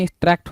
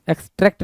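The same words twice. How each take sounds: First: एक्सट्रैक्ट said as "ex-TRACT", with an open a; correct vowel. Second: एक्सट्रैक्ट said as "ex-TRECT", with an e; wrong vowel. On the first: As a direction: say एक्सट्रैक्ट with "a" as in "track". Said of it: "होता". (एक्सट्रैक्ट में खुला "ऐ" बोलें) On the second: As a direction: say एक्सट्रैक्ट with "e" as in "trek". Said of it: "नहीं". (एक्सट्रैक्ट को "एक्सट्रेक्ट" बोलें, ए की मात्रा से) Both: Shown as a demonstration.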